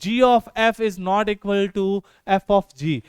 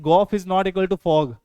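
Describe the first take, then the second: First: Each letter and 'of' are said as separate words. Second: The letters and 'of' blend into single words. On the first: The speaker calls it right. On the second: The speaker calls it wrong.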